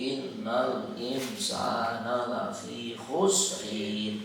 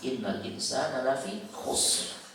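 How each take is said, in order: First: The last word ends with a drawn-out added syllable. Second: The last word ends short on the final consonant. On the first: The speaker calls it wrong. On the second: The speaker calls it right.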